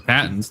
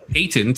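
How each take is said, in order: First: Patent is said with an American pronunciation. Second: Patent is said with a British pronunciation. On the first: The speaker calls it right. "instead of a patent" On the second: The speaker calls it wrong. "you call it a patent"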